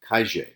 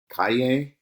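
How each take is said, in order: First: It is said in an Argentine-Uruguayan way. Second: It is said in a general Spanish way. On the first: "they say calle" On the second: "Rather than saying calle for street"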